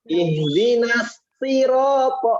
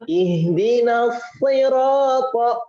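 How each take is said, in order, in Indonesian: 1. Bunyi s tipis, pangkal lidah rendah. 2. Bunyi s tebal, pangkal lidah diangkat. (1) "Malah bacanya ... Karena tidak mengangkat pangkal lidah"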